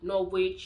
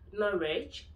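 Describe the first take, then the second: First: The W sound is pronounced. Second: The W sound is silent. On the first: The speaker calls it wrong. "you don't say Norwich" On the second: The speaker calls it right. "So that's how you pronounce it"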